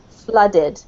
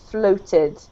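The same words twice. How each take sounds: First: "Flooded." with an uh vowel as in cup; "Flooded." said FLUH-did; teacher models "Flooded." with uh sound. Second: "floated." with a round long O; "floated." said FLOH-tid; teacher models "floated." with a full O; more O. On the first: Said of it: "make it more of an uh sound". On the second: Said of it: "a much more O". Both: Shown as a demonstration.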